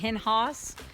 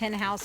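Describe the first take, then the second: First: House is said like the German word Haus. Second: House is said with a plain English vowel. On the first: The speaker calls it wrong. "that's like the German pronunciation of house" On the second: The speaker calls it right. "I'm sure it's Hen House"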